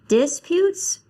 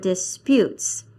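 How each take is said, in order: First: The stress is on the first syllable. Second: The stress is on the second syllable. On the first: The speaker calls it wrong. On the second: The speaker calls it right.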